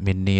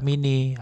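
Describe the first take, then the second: First: The n sound is held long and doubled. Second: The n sound is short and single.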